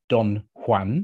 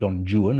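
First: Juan is said the usual way. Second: Juan is said the anglicized way.

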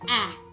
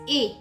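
First: A short vowel sound, as in cat. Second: A long vowel sound, like the letter's name. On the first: The speaker calls it wrong. "not A" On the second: The speaker calls it right. "Here is A says A"

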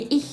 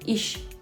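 First: The word ends with a rough kh sound. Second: The word ends with a soft sh sound. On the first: "це вже «хохдойч іх»" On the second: "Вони кажуть «іш»"

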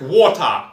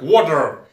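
First: It is said with a British pronunciation. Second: It is said with an American pronunciation. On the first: "есть британское произношение" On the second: "Есть американское произношение"

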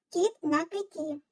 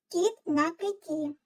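Both takes have the same delivery.

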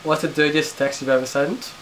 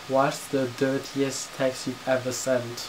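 First: It is said at normal speed. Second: It is said slowly.

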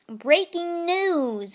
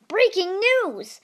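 First: It is said in a normal speaking voice. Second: It is said in a put-on animal-like voice.

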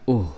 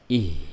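First: The vowel is a u sound. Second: The vowel is an i sound. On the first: The speaker calls it wrong. "Bukan uh ya" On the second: The speaker calls it right. "dibaca ih ya. Jadi kasrah ya"

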